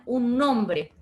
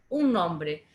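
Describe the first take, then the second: First: Nombre hit firmly and louder; teacher stressing "nombre" for the class. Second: Said in the usual way. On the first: Shown as a demonstration. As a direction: lean on "nombre" to fix the idea. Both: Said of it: "le puedo poner".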